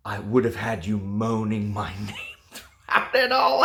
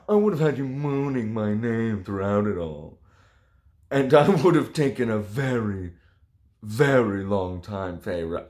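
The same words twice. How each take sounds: First: The line cracks into a giggle on name; reading through laughter. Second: Composed dramatic reading. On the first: Reviewer failing to read the steamy line, laughing. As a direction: try to read it straight but laugh. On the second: Reviewer retaking the steamy line, mock sultry and composed. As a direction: get through it straight this time. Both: Acted. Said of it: "Oh, sorry".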